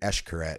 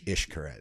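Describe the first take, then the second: First: The name begins with an 'esh' sound. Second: The name begins with an 'ish' sound. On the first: The speaker calls it wrong. "we were saying Eshkaret" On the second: The speaker calls it right. "but I think it's Ishkaret"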